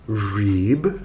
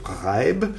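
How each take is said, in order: First: The name is said the American way. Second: The name is said the German way.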